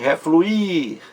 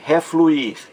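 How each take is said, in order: First: "refluir" with the final I high and drawn out; stress on final I. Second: Said in the usual way. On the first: Shown as a demonstration. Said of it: "a vogal mais forte". ("refluir" com o I mais forte, esticado) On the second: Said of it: "Então veja aí".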